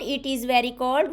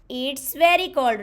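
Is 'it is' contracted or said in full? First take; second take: full; contracted. First: It is said as two full words. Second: It is said as one short contracted syllable. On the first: The speaker calls it wrong. "Not it is very cold" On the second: The speaker calls it right. "We will say it's very cold"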